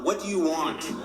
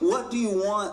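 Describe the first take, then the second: First: It sounds defeated and resigned, like giving up. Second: It sounds exasperated, like at one's wits' end.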